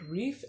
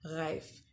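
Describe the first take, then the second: First: The vowel sounds like 'ee' in beef. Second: The vowel sounds like 'i' in life. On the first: This is how the speaker used to say it. The speaker calls it wrong. "I've been pronouncing it Reef" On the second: This is the German way of saying it. The speaker calls it right. "it's pronounced Reif because she is a German influencer"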